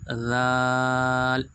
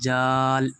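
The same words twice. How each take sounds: First: The word begins without a 'j' sound. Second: The word begins with a 'j' sound. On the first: The speaker calls it right. "क्या पढ़ेंगे इसको" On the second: The speaker calls it wrong. "यहाँ बहुत से बच्चे क्या पढ़ते हैं दोस्तों, जाल। हरूफ को बिल्कुल दोस्तों ख़राब कर देते हैं"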